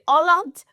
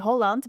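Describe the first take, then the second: First: It is said with a thick German accent. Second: It is said without a German accent. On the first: A Swiss person says it. "a bit of that thick German accent" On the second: A Dutch person says it. "you would say Holland"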